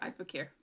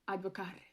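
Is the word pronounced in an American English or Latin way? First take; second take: American English; Latin. First: It is pronounced in an American English way. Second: It is pronounced in a Latin-style way.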